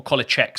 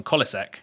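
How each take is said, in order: First: "Kolacek" with a CH sound before the final ek; corrected pronunciation. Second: "Kolacek" with an S sound before the final ek; first pronunciation. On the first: Streamer corrects himself on chatter's name, "Kolacek" as KOLL-a-check. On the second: Streamer picks the first option for chatter's name, "Kolacek" as KOLL-a-seck. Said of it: "how do you pronounce that". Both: Shown as a demonstration.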